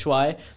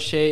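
First: The syllable ends in a 'uai' sound. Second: The syllable ends in an 'ei' sound. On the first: The speaker calls it right. "it's Shuai" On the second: The speaker calls it wrong. "it's not Shei"

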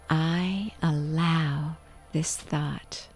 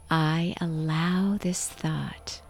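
First: It is said loudly with full engaged voice. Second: The same.

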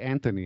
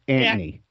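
First: The name is said in a plain standard way. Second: The name is said in a local neighborhood accent. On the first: The speaker calls it wrong. "you don't say Anthony in this neighborhood back then" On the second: The speaker calls it right. "It was Anthony"

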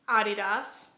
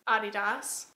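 First: It is pronounced the German way. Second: The same.

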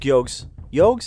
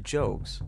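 First: The name begins with a 'y' sound. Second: The name begins with a 'j' sound.

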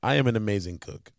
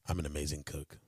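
First: It is said in the normal voice. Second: It is said in a deeper voice.

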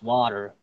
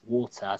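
First: It is said with an American accent. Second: It is said with a British accent. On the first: "in American English is water" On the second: "but in British English is water"

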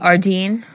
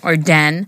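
First: The second syllable has a long ee vowel. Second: The second syllable has a short e vowel. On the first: This is how the speaker has always said it. "I always called it Ardeen" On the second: This is how the store's own announcement said it. "was calling it Arden"

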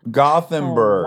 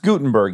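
First: The th sound is clearly pronounced. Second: The h is silent, giving a plain t sound. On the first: The speaker calls it right. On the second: The speaker calls it wrong.

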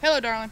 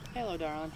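First: It is said loudly. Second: It is said quietly.

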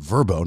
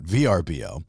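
First: The name is said as a single word. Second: The name is spelled out letter by letter. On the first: "it's pronounced Vrbo" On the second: "not VRBO"

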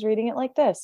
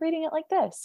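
First: It is said in an older, teenage-sounding voice. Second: It is said in a young child's voice. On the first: The narrator has grown older. "all of a sudden" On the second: The narrator is a young child. "more of an 8-year-old voice"

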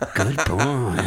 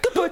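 First: The voice is flat and low-pitched. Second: The voice is excited and high-pitched. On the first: The speaker calls it wrong. "Oh, not like that" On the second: The speaker calls it right. "you have to be, like, excited and high-pitched"

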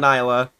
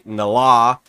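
First: The first syllable sounds like nye. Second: The first syllable sounds like na. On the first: "Don't say" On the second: "Don't say Nala"

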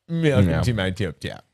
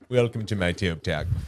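First: It is said in a special put-on voice. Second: It is said in an ordinary speaking voice.

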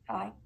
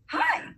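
First: It sounds unconfident and timid. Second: It sounds warm and confident.

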